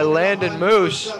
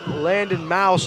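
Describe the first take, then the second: First: The surname is said with an 'oo' vowel. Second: The surname is said with an 'ow' vowel. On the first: The speaker calls it wrong. "butchering the poor kid's last name" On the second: The speaker calls it right. "That's Landon Mouse"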